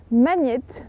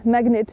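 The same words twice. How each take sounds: First: "magnète" with gn as a French ny sound; alternative pronunciation. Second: "magnet" with separate g and n sounds; alternative pronunciation. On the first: Vlogger unsure how to pronounce the prize, French-style "magnète". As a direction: say "magnète" softening gn into ny. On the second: Vlogger offering another pronunciation of the prize, hard-g "magnet". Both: Shown as a demonstration. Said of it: "je ne sais pas comment vous le prononcez".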